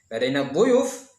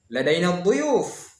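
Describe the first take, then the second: First: "dhuyuf" rises like a question; intonasi bertanya. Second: "dhuyuf" falls at the end, drawn out slowly; intonasi pernyataan. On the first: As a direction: ask "Ladaina dhuyuf" back, lifting the end of "dhuyuf". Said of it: "kapan bertanya". (intonasi bertanya, "dhuyuf" naik di akhir) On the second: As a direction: state "Ladaina dhuyuf" slowly, tune dropping on "dhuyuf". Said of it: "kapan pernyataan". (intonasi pernyataan, "dhuyuf" menurun di akhir) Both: Shown as a demonstration.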